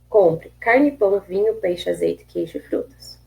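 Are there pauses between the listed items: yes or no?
no. The items run together without pauses.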